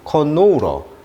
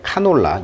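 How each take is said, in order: First: English-style, with stress on the second syllable. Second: Korean-style, with even syllables and no stress.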